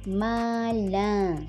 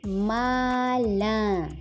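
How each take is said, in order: No difference in how they are said.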